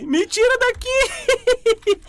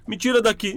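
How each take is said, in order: First: Very high, slow panicked wail; being chased. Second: Said in the usual way. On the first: Real, not acted. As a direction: stretch out the plea in mock terror. Monster chasing player.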